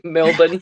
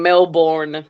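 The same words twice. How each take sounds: First: "Melbourne" said Mel-bn, second syllable reduced; swallowed Melbourne. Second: "Melbourne" pronounced Mel-BORN with a full vowel; American-style Melbourne. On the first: Laughing over how people say the city, reduced "Melbourne". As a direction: shorten the end of "Melbourne" to an unstressed bn. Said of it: "I love how Americans". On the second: Telling what others said before, full-vowel "Melbourne". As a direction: sound out the second syllable of "Melbourne" like born. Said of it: "They were saying it before". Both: Retold or imitated.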